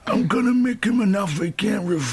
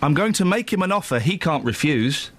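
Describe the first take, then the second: First: It is said in a put-on character voice. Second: It is said in the speaker's normal voice.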